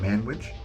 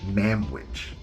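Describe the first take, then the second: First: The consonant before 'wich' is an n sound. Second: The consonant before 'wich' is an m sound. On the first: "Like the M A N?" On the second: "like I've been saying it halfway through this segment"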